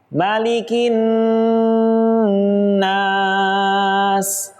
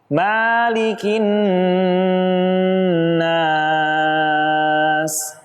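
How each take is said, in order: First: The vowel after the m is short. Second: The vowel after the m is drawn out long. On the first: The speaker calls it right. "Contoh yang tepat" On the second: The speaker calls it wrong. "yang kurang tepat"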